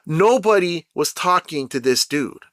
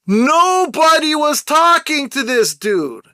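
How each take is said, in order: First: Said in the usual way. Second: Raised voice, pitched high and slowed down; real yelling. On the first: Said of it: "I'm gonna stop yelling". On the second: Real, not acted. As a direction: yell it out, stretching the words. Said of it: "You see, I'm yelling now".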